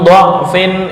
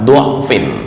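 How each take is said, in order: First: The first vowel is an open a sound. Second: The first vowel is a rounded u sound. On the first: The speaker calls it right. "Dibaca dengan min dha'fin itu lebih utama" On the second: The speaker calls it wrong. "dibaca dengan dhammah dha'fin"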